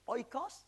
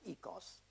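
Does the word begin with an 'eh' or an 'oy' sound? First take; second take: oy; eh. First: The word begins with an 'oy' sound. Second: The word begins with an 'eh' sound. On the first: "Sometimes you are pronouncing it oikos" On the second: "sometimes ecos"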